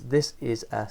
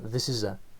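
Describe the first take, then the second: First: Each word is said separately with breaks. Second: The words run together as one sound. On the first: This is how a learner speaks. "That's how a learner would pronounce it" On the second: This is how a native speaker speaks. "these three words here are going to sound to the to the learner all as one"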